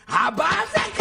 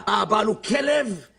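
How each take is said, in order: First: Higher, outraged cry; indignant shout. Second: Said in the usual way. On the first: Acted. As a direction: shout it out as an outburst. Same words shouted back. (צעקה נזעמת)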